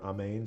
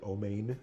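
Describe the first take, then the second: First: It is said without an Ashkenazic pronunciation. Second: It is said with an Ashkenazic pronunciation. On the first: "I've always heard uh, Amen or Amen"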